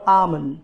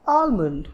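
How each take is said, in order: First: आमंड with the l silent; correct pronunciation. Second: आलमंड with the l sounded; wrong pronunciation. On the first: Teacher asking what badam is called, correct silent-l आमंड. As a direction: say आमंड as "aa-mund", no l. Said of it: "So the correct pronunciation". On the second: Teacher offering learners the other option, wrong l-sounded आलमंड. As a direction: say आलमंड as "aal-mund", l pronounced. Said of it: "which is wrong". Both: Shown as a demonstration.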